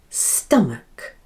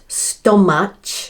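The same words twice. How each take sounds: First: The last syllable sounds like muck. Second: The last syllable sounds like match. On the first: The speaker calls it right. "match sounds like muck" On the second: The speaker calls it wrong. "Not stomach"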